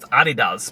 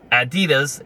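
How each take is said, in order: First: The name is said the German way. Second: The name is said the usual English way.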